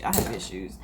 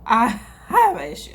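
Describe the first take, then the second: First: Much lower and softer, under the breath; muttered admission. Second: Said in the usual way. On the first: Real, not acted. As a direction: mutter it to yourself.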